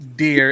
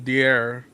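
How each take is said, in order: First: The word sounds warm and natural. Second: The word sounds flat and robotic. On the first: A real person is reading it. The speaker calls it right. "instead of saying you know dear" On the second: A computer voice is reading it. The speaker calls it wrong. "it says dear"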